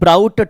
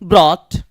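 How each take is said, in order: First: The vowel sounds like 'ow' in 'out'. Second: The vowel sounds like 'aw' in 'law'. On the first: The speaker calls it wrong. "नहीं करना है आपको" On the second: The speaker calls it right. "ऐसे पढ़ना है"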